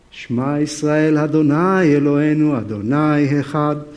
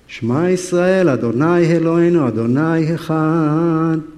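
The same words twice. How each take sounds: First: A lightly voiced solemn Hebrew prayer; serious Hebrew prayer. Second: Serious Hebrew prayer. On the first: Peter praying on the roof, lightly voiced solemn Hebrew prayer. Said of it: "here is Peter, very serious, praying. Of course, in Hebrew". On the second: Retold or imitated. Peter insisting on his prayer, louder earnest Hebrew chant. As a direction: pray the Shema hard to shut out the voice. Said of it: "This is serious business here".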